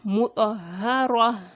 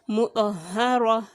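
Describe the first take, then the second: First: The word ends on a vowel with released air. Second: The word ends on a vowel with released air.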